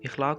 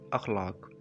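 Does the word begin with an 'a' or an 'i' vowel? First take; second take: i; a. First: The word begins with an 'i' vowel. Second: The word begins with an 'a' vowel. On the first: The speaker calls it wrong. "अक्सर लोग अलिफ़ के नीचे ज़ेर के साथ पढ़ते हैं, जो कि गलत है" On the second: The speaker calls it right. "ज़बर के साथ इसे पढ़ा जाता है और इसका सही तलफ़ुज़ बनता है"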